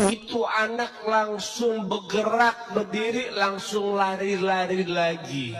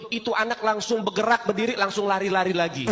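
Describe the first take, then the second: First: Drawn out, savoring each word; slow dramatic retelling. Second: Said in the usual way. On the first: A narrator's reading. Preacher retells to the congregation how the child rose, slow and awed. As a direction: linger on the miracle with awe.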